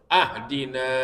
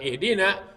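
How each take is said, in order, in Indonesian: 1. Kata ini dimulai dengan vokal 'a'. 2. Kata ini dimulai dengan vokal 'i'. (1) "kalau dia fathahkan pada hamzanya" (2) "bukan ihdina"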